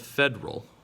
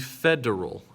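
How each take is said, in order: First: The middle E vowel is dropped. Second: The middle E vowel is clearly heard. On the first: The speaker calls it wrong. "not the federal" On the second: The speaker calls it right. "we have that E sound in there"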